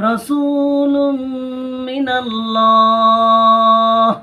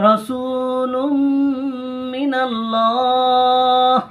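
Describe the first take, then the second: Both takes have the same delivery.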